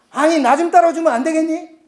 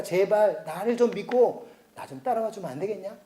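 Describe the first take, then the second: First: "따라와" pushed higher and louder; an exasperated God raising the voice on "따라와"; louder exasperated plea. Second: "좀" leaned on in a soft, begging voice; a quiet parental plea with "좀" stressed; soft pleading God. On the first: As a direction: beg with rising frustration. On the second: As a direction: plead gently with the people. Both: Acted.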